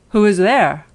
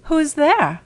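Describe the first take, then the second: First: Loud, booming wolf at the door; wolf in grandmother's bed answering the knock; big wolf voice. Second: Put-on high, loud old grandmother calling out; frail grandmother asking who knocks; grandmother's voice. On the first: Acted. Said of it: "heard the big voice of the wolf". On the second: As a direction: call from the sickbed as an old woman. Sick grandmother answers the door.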